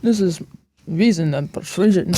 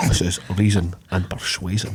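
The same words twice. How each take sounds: First: Light mock Connery Scottish accent; a hint of Sean Connery's Scottish voice; Sean Connery impression. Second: Quieter mock Connery Scottish accent; a hint of Sean Connery's Scottish voice, softer; Sean Connery impression. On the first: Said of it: "sound like Sean Connery". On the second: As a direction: repeat it as Connery, lower. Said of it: "does sound like something Sean Connery would say".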